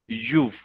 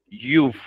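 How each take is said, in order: No difference in how they are said.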